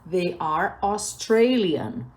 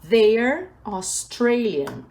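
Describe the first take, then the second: First: They and are are said as separate words. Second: They and are merge into one syllable. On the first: "a pronúncia they are Australian" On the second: "fica they're Australian"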